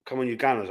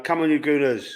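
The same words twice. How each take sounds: First: Gunners said with a short u, GUN-ners; Gunners pronunciation. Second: Gooners said with a long oo, GOO-ners; Gooners pronunciation. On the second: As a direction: say Gooners like the fans' nickname, long oo. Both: Shown as a demonstration. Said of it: "I should say, really".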